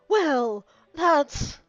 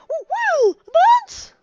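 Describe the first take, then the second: First: It is said without the character's put-on voice. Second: It is said in the character's put-on voice. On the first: The speaker calls it wrong. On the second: The speaker calls it right.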